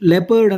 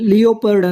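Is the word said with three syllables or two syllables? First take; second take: two; three. First: It is said as lep-ard, two syllables. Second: It is said as lee-o-pard, three syllables. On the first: The speaker calls it right. "ಇಲ್ಲಿ ಲೆಪರ್ಡ್ ಅಂತ ಉಚ್ಚಾರ ಮಾಡಬೇಕಿದು" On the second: The speaker calls it wrong. "ಲಿಯೋಪರ್ಡ್ ಅಂತ ಅನ್ಬಾರ್ದು ನೋಡಿ"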